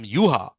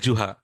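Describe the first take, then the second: First: The name begins with a Y sound. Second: The name begins with a J sound. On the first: The speaker calls it right. "So J they pronounce as Y" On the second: The speaker calls it wrong. "if you pronounce J uh, Y J as Juha, they'll feel very angry"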